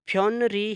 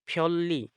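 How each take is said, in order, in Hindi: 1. इसे r से पहले n की आवाज़ के साथ बोला जाता है। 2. इसे दोहरी l की आवाज़ के साथ बोला जाता है। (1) "फ्योन री है" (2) "तो इसको पढ़ेंगे फ्योल्ली"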